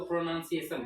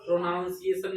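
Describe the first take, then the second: First: "प्रोनाउंसिएशन" with "nun" as second syllable; short vowel, no "ow", in "प्रोनाउंसिएशन"; corrected pronunciation. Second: "प्रोनाउंसिएशन" mispronounced with "noun" inside; "ow" vowel in the second syllable of "प्रोनाउंसिएशन"; wrong pronunciation. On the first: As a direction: say "प्रोनाउंसिएशन" as pro-NUN-si-e-shun. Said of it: "इसको प्रोनाउंसिएशन". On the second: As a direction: say "प्रोनाउंसिएशन" as pro-NOUN-si-e-shun. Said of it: "प्रोनाउंसिएशन नहीं बोलना है". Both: Shown as a demonstration.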